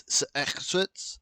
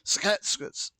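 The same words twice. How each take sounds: First: "Sexwitz" drawn out, halting and uncertain; slow, tentative try at "Sexwitz" with a rasped middle; wrong attempt. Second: "Sexwitz" higher, in two crisp bursts of consonants; retry "Sexwitz" higher, hitting each half separately; second attempt. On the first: Trying a First Nations name, halting "Sexwitz". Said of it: "don't hate me if I get this wrong". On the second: Correcting his botched name attempt, higher two-part "Sexwitz". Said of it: "No, that was wrong". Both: Shown as a demonstration.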